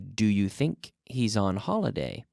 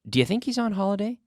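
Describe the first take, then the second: First: The sentence is said slowly and carefully. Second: The sentence is said quickly with linked sounds. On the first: "Slowly, I would say" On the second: "But quickly, I can say"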